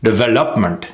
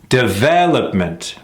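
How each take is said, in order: First: DEVELOPMENT short, with misplaced stress; mis-stressed development. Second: DEVELOPMENT with a drawn-out VEL; correct stress on development. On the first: Coach showing the faulty rhythm, mis-stressed DEVELOPMENT. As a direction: hurry past VEL in DEVELOPMENT. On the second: Coach contrasting two rhythms, stressed de-VEL-opment. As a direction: stretch the second syllable of DEVELOPMENT. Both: Shown as a demonstration. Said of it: "You hear the difference?".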